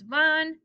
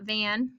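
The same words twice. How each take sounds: First: The vowel is an open Spanish 'ah' sound. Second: The vowel is the English 'a' of 'van'. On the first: The speaker calls it right. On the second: The speaker calls it wrong.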